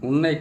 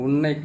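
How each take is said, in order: Both takes have the same delivery.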